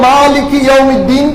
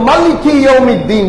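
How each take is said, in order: First: The first vowel of maliki is drawn out long. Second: The first vowel of maliki is said short. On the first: "একটা হচ্ছে মার মধ্যে টান হবে" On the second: "আর একটা হচ্ছে টান হবে না"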